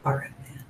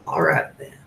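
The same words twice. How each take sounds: First: "All right, then" whispered with no voice. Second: Said in the usual way. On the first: Shown as a demonstration. Host repeats his catchphrase in a whisper.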